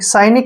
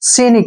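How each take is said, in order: First: The first vowel is an 'eye' sound. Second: The first vowel is a long 'ee' sound. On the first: "साइनिक भी बोल सकते हैं हम" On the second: "सी"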